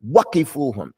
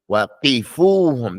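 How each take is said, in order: First: The stress falls on the first syllable, wa. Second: The first syllable, wa, is left unstressed. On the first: The wa is treated as part of the verb. The speaker calls it wrong. "you can't put the emphasis on the wow" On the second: The wa is a separate word meaning and. The speaker calls it right. "You have to say"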